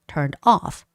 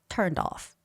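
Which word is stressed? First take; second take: off; turned. First: The stress falls on the word off. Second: The stress falls on the word turned. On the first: The speaker calls it right. "It's normally the adverb part that has the stress" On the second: The speaker calls it wrong. "not turned off"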